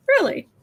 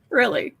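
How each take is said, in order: First: High, sharp disbelieving really; incredulous. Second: Said in the usual way. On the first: Real, not acted. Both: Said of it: "repeated incredulous question".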